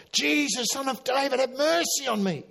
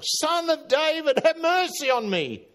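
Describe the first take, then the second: First: High pleading cry for mercy. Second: High, louder desperate cry, slowed. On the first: Blind beggar calling to Jesus, high pleading cry. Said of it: "And he cried out". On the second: Beggar shouts over the crowd to Jesus, louder high cry. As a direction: push the plea harder, calling over the crowd. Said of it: "he cried out all the more". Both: Retold or imitated.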